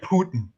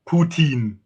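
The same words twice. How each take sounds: First: It is said the American way. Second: It is said the Russian way.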